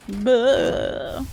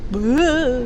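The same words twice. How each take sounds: First: Quick dumb bro grunt; frat bro. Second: Loud dumb bro grunt; frat bro. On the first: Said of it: "frat guy voice line". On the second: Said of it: "frat guy voice line from this game". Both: Retold or imitated.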